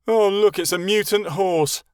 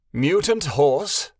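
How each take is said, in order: First: Put-on loud, high jeer of a bratty boy; mocking. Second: Slow, offended echo of the insult; indignant whinny. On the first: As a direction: sneer at the unicorn with a loud jab. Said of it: "rolling his eyes". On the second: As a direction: repeat the words in outraged disbelief. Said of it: "the unicorn whinnied angrily". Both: A narrator's reading.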